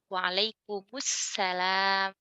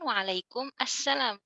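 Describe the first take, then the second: First: The words are joined, with a u after the m. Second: Waalaikum and assalam are said as separate words. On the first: This is how it is commonly said. "mim-nya diharokatkan jadi dhammah" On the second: This is the underlying form.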